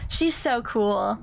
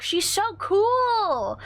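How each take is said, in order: First: Said in the usual way. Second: High, slow squealed praise; excited gushing. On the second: Real, not acted. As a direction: gush with fan excitement. Fangirling over Kyrie.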